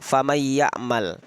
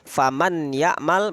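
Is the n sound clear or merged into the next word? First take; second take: merged; clear. First: The n merges into a doubled y sound. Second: The n is pronounced clearly before the y. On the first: This is how the words are recited. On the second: This is the original form of the words. "asal katanya"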